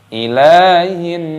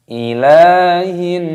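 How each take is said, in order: The two takes are said the same way.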